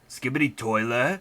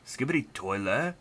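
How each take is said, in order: First: It is said loudly. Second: It is said quietly.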